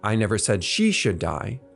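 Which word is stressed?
she. The stress falls on the word she. It was said about someone else.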